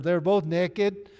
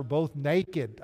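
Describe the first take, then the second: First: Loud, slow, higher Arkansas drawl on "naked"; playful Arkansas pronunciation of "naked" with a short e; Arkansas accent. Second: Said in the usual way. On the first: Shown as a demonstration. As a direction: say "naked" as Arkansas "nekkid", drawn out. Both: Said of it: "Arkansas naked".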